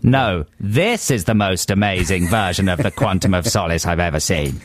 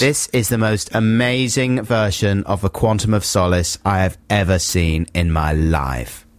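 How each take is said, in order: First: Lower-pitched talent-judge verdict; Simon Cowell. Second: Understated talent-judge verdict, slowing at the end; Simon Cowell. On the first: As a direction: drop the voice into a judge's pronouncement. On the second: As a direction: deliver a measured, emphatic judge's verdict. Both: Acted. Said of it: "do your Simon Cowell impression".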